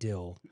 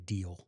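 First: The word has a short vowel, like 'dill'. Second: The word has a long vowel, like 'deal'. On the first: This is how people in the West say it. "You people in the West pronounce it dill" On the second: This is how everyone else says it. "The rest of us say deal"

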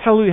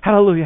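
First: The word is said very quickly. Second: The word is said at a normal pace.

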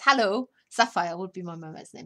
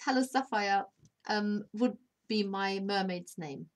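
First: The break falls after hello, grouping Sapphire onward. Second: The break falls after Sapphire, grouping hello Sapphire. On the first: Sapphire is named as the chosen mermaid name. The speaker calls it right. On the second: Someone is greeting a person called Sapphire. The speaker calls it wrong.

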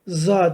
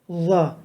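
First: The first consonant is a plain z sound. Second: The first consonant is lisped, with tongue at teeth. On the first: The speaker calls it wrong. "Za değil" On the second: The speaker calls it right. "z harfi peltek harflerdendir"

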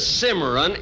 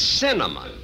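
First: The word is said as cimarron. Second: The word is said as cinnamon. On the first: The speaker calls it wrong. "it isn't cimarron" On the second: The speaker calls it right. "it's cinnamon"

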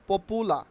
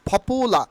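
First: The first p is plain, without a puff. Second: The first p is aspirated, with a puff. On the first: The speaker calls it wrong. "Not পপুলার" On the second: The speaker calls it right. "উচ্চারণ হবে ফপুলা"

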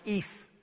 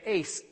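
First: The word rhymes with geese. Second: The word rhymes with face. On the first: "that should be pronounced ees" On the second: "Some people say ace"

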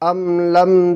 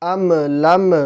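First: The m is closed cleanly without bounce. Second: The m ends with an echoing bounce. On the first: The speaker calls it right. "আমি যেভাবে পড়তেছি আপনারা চেষ্টা করবেন আমার মতো করে পড়ার" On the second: The speaker calls it wrong. "এখানে আম লাম এরকম বলা যাবে না, কলকলা হয়ে যাবে"

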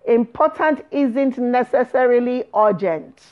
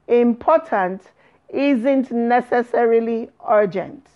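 First: The phrase is spoken at a normal pace. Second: The phrase is spoken at a slow pace.

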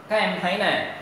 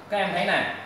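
The two takes are said the same way.

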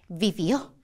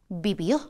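Both takes have the same delivery.

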